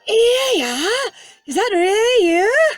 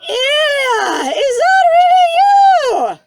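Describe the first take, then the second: First: It is said in a hushed, quiet voice. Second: It is said at a normal, full volume.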